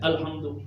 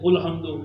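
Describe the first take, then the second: First: The word begins with an a vowel. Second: The word begins with a u vowel. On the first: "आप कहते हैं अल्हम्दु" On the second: "हजरत मुफ्ती साहब कहते हैं उल्हम्दु"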